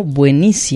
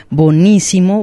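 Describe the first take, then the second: First: Buenísimo with the "ue" diphthong; diphthong kept. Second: Bonísimo with plain "o" for "ue"; simplified learned form. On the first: Host repeating the examples, "ue" kept in "buenísimo". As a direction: say "buenísimo" keeping "ue". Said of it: "se puede mantener el, el diptongo". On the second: Host repeating the examples, plain "o" in "Bonísimo". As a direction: say "Bonísimo" without the diphthong. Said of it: "Bonísimo es la simplificación". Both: Shown as a demonstration.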